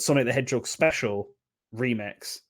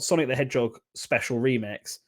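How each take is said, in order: First: There is a pause between 'Special' and 'Remix'. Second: It runs on with no pause before 'Remix'. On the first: The title names a game called Sonic the Hedgehog Special. "like the comma there" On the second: The title is a special remix of a Sonic game.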